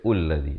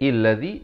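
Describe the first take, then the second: First: The word begins with a 'u' vowel. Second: The word begins with an 'i' vowel. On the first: "Jangan baca ulladhi" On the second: "Jangan baca illadhi"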